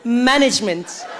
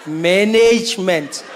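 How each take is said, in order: First: "Management" as MAN-ij-ment; slow "Management", short middle syllable, stressed MAN; corrective pronunciation. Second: Slow "Management" as man-NAYJ-ment; long middle NAYJ in "Management", African accent; African-accented attempt. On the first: Acted. Listener coaching [name], slow "Management" as MAN-ij-ment. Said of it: "it's management". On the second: [name] trying to copy, very slow African-accented "Management", man-NAYJ-ment.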